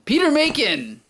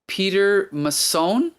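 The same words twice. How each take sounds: First: Macon said as MAY-kin, higher pitch; confident MAY-kin for Macon; corrected surname pronunciation. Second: Mason said as muh-SOHN, questioning; slow, tentative muh-SOHN for Mason; unsure mispronounced surname. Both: Real, not acted. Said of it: "Is it Macon or Mason?".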